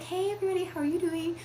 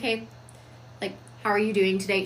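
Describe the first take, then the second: First: Much higher, quick and sugary; mock high-pitched greeting. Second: Calm commanding hello. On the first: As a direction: chirp it up high like a bubbly mom. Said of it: "She talks down here". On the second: Shown as a demonstration. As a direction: say it grounded and in charge. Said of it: "She talks down here because it's a much more commanding tone".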